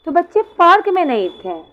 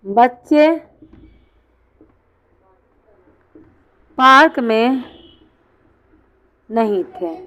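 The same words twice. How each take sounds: First: Said in the usual way. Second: हर टुकड़ा अलग, लंबे विराम के साथ; बच्चे... पार्क में... नहीं थे, रुक-रुक कर बोलो; word-by-word dictation. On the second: Shown as a demonstration. (धीमे-धीमे लिखवाने वाला अंदाज़) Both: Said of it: "जैसे मैंने कहा".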